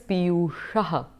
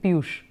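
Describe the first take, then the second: First: The name ends with an added breathy aha syllable. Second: The name ends on the final sh sound. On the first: This is the full Sanskrit subject-case form. "the actual word is Piyushaha uh, in the subject case" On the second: This is the everyday Hindi form. "in the Hindi speaking world, they will just make it Piyush"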